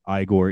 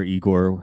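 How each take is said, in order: First: "Igor" said as EYE-gor; "Igor" starting with the vowel of "eye"; pronounced EYE-gor. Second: "Igor" said as EE-gor; "Igor" starting with the vowel of "see"; pronounced EE-gor. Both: Shown as a demonstration. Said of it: "whatever you're supposed to say".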